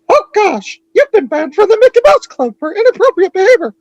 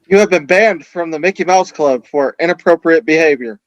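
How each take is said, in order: First: It is said in a Mickey Mouse voice. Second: It is said in a normal voice.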